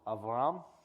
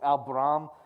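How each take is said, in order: First: The middle consonant is a V sound. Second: The middle consonant is a B sound. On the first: This is closer to the original Hebrew form. "would be more of a V sound" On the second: This is the usual English form of the name. "we say Abram"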